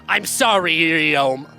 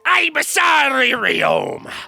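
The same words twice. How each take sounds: First: It is said in his normal voice. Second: It is said in a Billy Wonka voice.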